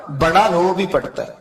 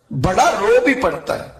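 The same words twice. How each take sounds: First: بڑا pressed at the front, falling close; بڑا stressed, falling tune; stress on the elder. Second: بھی lifted and pressed, higher than the first take; بھی stressed, rising then falling; stress on even. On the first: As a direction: lean on بڑا, let the rest fall. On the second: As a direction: hit بھی, let the line fall after it. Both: Shown as a demonstration.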